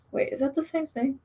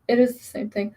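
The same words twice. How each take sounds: First: "wait, is that the same thing?" asked as a puzzled question, no stress on "is". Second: "It is the same thing" with "is" stressed, confirming. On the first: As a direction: wonder aloud if it's "the same thing". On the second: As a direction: lean on the word "is". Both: Real, not acted.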